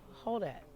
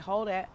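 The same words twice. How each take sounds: First: It is said in a gentle tone. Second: It is said in an angry tone.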